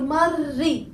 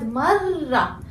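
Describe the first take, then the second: First: The word ends with an i vowel. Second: The word ends with an a vowel. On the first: The speaker calls it wrong. "or marri" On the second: The speaker calls it right. "I said marra"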